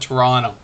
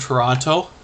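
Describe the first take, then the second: First: It is said the way locals pronounce it. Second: It is said the way outsiders pronounce it. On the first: This is how residents of the city say it. "We pronounce it Toronto" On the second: This is how people from elsewhere say it. "The people in Toronto don't pronounce it that way"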